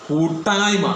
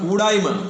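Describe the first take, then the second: First: The middle t sound is doubled and forceful. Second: The middle t sound is short and weak. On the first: A state of being together in fellowship. The speaker calls it right. "ആ ഇട്ടാ തന്നെ വേണം" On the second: A state of being unable to come together. The speaker calls it wrong. "പലർക്കും മലയാളത്തിലെ ഉച്ചാരണം വളരെ മോശമാണ്. അതുകൊണ്ട് പലരും പറയുന്നത് കൂടായ്മ"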